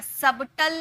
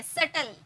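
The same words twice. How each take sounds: First: "सबटल" with an audible b; sounded B. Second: "सटल" with no b at all; silent B. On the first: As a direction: wrongly say "सबटल" as sub-tl. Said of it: "सबटल नहीं बोलते हैं". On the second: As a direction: model "सटल" as sut-l. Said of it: "ये silent है". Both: Shown as a demonstration.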